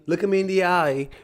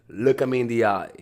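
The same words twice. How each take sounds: First: The voice rises at the end. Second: The voice falls firmly at the end. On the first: The speaker sounds weak and unsure. The speaker calls it wrong. "Like that inspires people to disrespect you" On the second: The speaker is in command. The speaker calls it right. "Like down talk"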